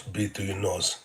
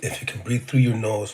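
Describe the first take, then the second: First: "breathe" said softly, trailing down; softer repeat. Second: Said in the usual way. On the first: Shown as a demonstration. Coaching viewers to breathe, softer repeat. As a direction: ease off and say "breathe through your nose" gently. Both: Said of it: "one of the pro tips is".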